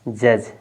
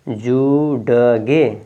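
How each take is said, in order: First: The d is silent and it is one syllable. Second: The d is sounded and an extra syllable follows. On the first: The speaker calls it right. "ये क्या है जज" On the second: The speaker calls it wrong. "जुड़गे नहीं है"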